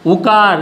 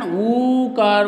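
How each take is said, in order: First: उकार with a brief, firm first उ; short उ sound. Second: ऊकार with the first ऊ held long; long ऊ sound. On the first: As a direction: open उकार on a quick उ. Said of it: "इसे कहते हैं उकार". (उकार में छोटा उ) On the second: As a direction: stretch the opening of ऊकार. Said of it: "उच्चारण ऊकार होते हैं". (ऊकार में लंबा ऊ) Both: Shown as a demonstration.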